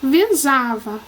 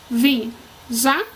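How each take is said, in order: First: Said in the usual way. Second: Visava as vi, za, va with pauses; syllable by syllable. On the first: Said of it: "a última palavra dessa coluna". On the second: Shown as a demonstration. Teacher counting three syllables, visava broken apart. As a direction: split visava slowly into three beats. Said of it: "Três sílabas".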